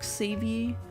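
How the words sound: The name is said with an English pronunciation. "in English-speaking countries it's more like Xavier"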